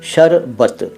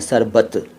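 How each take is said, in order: First: The word begins with an sh sound. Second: The word begins with a plain s sound. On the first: The speaker calls it right. "इसका सही तरीक़ा बोलने का है शरबत" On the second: The speaker calls it wrong. "उसको कई लोग सरबत कह देते हैं"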